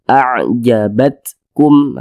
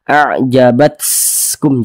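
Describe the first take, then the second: First: The t is released with a slight puff. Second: The t is released with a strong, hissing puff. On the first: The speaker calls it right. "Kecil saja" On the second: The speaker calls it wrong. "jangan berlebihan seperti itu"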